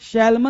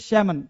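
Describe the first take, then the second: First: The L sound is pronounced in the word. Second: The L sound is left out of the word. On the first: The speaker calls it wrong. "शैलमन नहीं बोलते" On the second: The speaker calls it right. "एल क्या रहता है, silent"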